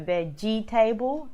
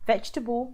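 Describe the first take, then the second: First: The word is said with four syllables. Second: The word is said with three syllables. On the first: The speaker calls it wrong. "It's wrong" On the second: The speaker calls it right. "three syllables is how you say it"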